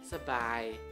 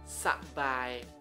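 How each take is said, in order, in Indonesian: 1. Suku kata pertama memiliki vokal pendek yang tereduksi. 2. Suku kata pertama memiliki vokal 'a' penuh. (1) "tapi aku lebih ngomong Sebai" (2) "bukannya Sabai, Sabai"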